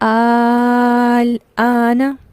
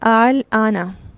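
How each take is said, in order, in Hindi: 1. दूसरा हमज़ा पूरी तरह लंबे स्वर में बदल जाता है। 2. दूसरा हमज़ा नरम होता है, बस हल्का सा बोला जाता है। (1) "इब्दाल का मतलब बदलने से है, तो ये जब टोटली बदल गया" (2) "इसे कहते हैं तस्हील, जिसके दूसरे हमज़ा को मैं निस्बतन नरमी से पढ़ रही हूँ"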